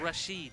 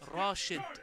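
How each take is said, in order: First: The last syllable is drawn out. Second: The first syllable is drawn out. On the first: The speaker calls it wrong. "not Rashid" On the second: The speaker calls it right. "is pronounced Rashid"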